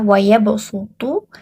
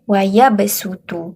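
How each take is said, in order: First: The s is a heavy, emphatic s sound. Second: The s is a light, plain s sound. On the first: "asalnya adalah" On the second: "dibaca ... harus dibaca dengan huruf sin"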